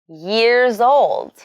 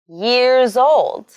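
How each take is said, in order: No difference in how they are said.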